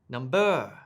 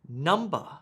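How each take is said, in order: First: The stress is on the second syllable. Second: The stress is on the first syllable. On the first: The speaker calls it wrong. "I don't say" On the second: The speaker calls it right. "Listen to how I emphasize the first part of the word"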